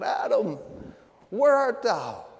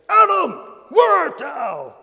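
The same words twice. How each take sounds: First: It is said in a sad, longing voice. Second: It is said in a harsh, attacking voice. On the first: God is a grieving father seeking his lost child. The speaker calls it right. "as if God were a brokenhearted father looking for a lost child" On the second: God is angrily accusing Adam. The speaker calls it wrong. "they had this kind of attacking, nasty kind of a voice"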